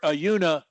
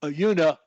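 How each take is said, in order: No difference in how they are said.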